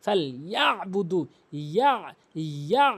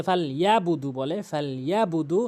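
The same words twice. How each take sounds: First: ইয়া squeezed in mid-throat before বুদু; correct ain. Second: ফাল ইয়াবুদু with ইয়া smooth, no ain catch; common mispronunciation. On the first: Teacher models the ain, throat catch in ইয়াবুদু. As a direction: tighten the throat at the end of ইয়া. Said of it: "এভাবে উচ্চারণ করতে হবে". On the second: Teacher copies most people's mistake, plain open ইয়াবুদু. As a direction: glide through ইয়া in ইয়াবুদু without throat closure. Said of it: "যেই ভুলটি করে অধিকাংশ লোক". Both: Shown as a demonstration.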